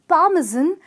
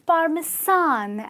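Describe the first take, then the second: First: The last syllable is said with a z sound. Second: The last syllable is said with an s sound. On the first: The speaker calls it right. "the sound with a Z" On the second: The speaker calls it wrong. "not the sound with the S"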